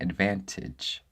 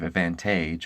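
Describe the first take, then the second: First: The final vowel is a short E/I. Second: The final vowel is a long A.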